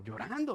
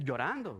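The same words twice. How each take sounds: First: "llorando" stretched with a swooping pitch. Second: Said in the usual way. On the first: Real, not acted. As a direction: stretch the middle of "llorando" for drama. Repeats word to dramatize the crying.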